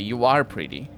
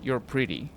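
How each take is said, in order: First: The verb is said in full and stressed. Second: The verb is contracted and unstressed. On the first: It contradicts someone who said otherwise. "you're emphasizing the word are" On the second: A plain statement. "If if you want to say you're pretty"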